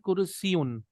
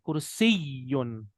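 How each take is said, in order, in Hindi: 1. Y ध्वनि छोटी और एकल है। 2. Y ध्वनि दोहरी है और थोड़ी देर तक खिंचती है। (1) "हमारा ना उर्दू में होता है" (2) "अरबी में या के ऊपर तशदीद है"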